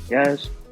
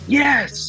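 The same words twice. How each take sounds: First: The word is said flat and routine. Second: The word is said with excited energy. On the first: It is a routine marker with no real praise. The speaker calls it wrong. "just going through the motions" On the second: The dog did something great and is celebrated. The speaker calls it right. "dog does something great... they have this giant party"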